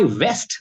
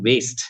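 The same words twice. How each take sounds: First: Said in the usual way. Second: Bengali-accented "waste" for West. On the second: Shown as a demonstration. Trainer showing mother-tongue influence, Bengali-accented "waste". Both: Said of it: "Bengali is my mother tongue".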